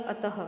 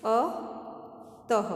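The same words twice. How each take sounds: First: Said in the usual way. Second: अतः drawn out very slowly, ending in a breathy ह; stretched visarga. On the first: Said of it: "शब्द बनेगा अतः". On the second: Shown as a demonstration. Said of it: "जोड़कर नए शब्द बनाओ". (अतः को बहुत धीरे, अंत में ह की साँस के साथ)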